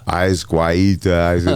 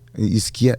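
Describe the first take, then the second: First: The first syllable sounds like 'eyes'. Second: The first syllable sounds like 'is'. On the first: The speaker calls it wrong. "They say it wrong every time" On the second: The speaker calls it right.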